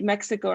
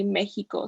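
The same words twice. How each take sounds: First: Mexico with a KS sound for X; English pronunciation. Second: Mexico with an H sound for X; Spanish pronunciation. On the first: Tutor showing the English way, Mexico with KS. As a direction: say Mexico as "MEK-si-ko". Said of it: "in English, we do say". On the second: Tutor showing the Spanish way, Mexico with H. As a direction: say Mexico as "MEH-hee-ko". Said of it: "it has, like, an H sound". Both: Shown as a demonstration.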